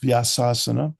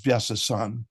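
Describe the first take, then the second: First: The word ends on a vowel sound. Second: The word ends on a consonant sound. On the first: The speaker calls it right. "It's Vyasasana" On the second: The speaker calls it wrong. "mispron- mispronounced as Vyasasan"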